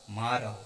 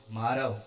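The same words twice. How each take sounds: The two takes are said the same way.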